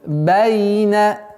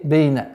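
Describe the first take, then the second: First: The first vowel sounds like open a. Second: The first vowel sounds like e. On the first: The speaker calls it right. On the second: The speaker calls it wrong.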